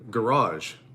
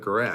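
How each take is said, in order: First: It uses the general North American pronunciation. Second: It uses the local Western Canadian pronunciation. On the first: This is the form used to avoid viewer complaints. "certain things that I've been saying differently on my YouTube channel" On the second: This is the form people use locally. "instead of"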